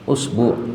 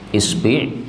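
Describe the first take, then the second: First: Both syllables use the vowel u. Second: Both syllables use the vowel i. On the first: "dhammah pada hamzah dan dhammah pada ba" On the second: "kasrah pada hamzah sama kasrah sama ba"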